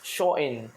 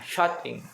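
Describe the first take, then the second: First: The t and the ending are dropped. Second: The t and final g are clearly pronounced. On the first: "aksen Manchester dia menjadi showing, T-nya hilang, in-nya pun hilang" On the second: "Menutup dalam bahasa Inggrisnya shutting ya"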